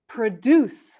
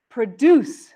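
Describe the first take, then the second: First: The stress is on the second syllable. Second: The stress is on the second syllable.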